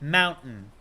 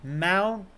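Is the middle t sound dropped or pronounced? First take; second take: dropped; dropped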